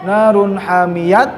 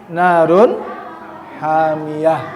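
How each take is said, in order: First: The last word ends with a t sound. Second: The last word ends with an h sound. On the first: The speaker calls it wrong. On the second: The speaker calls it right. "maka tak marbutoh dibacanya berubah menjadi ha"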